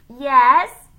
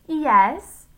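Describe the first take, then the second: First: Very loud, high donkey-like "yes?"; donkey with tonsillitis. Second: Put-on high, loud girlish "Yes?"; Leslie. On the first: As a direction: bray it like a sore-throated donkey. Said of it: "he sounded like a donkey with tonsillitis". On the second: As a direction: answer in a borrowed girl's voice. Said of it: "still in Leslie's voice". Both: A narrator's reading.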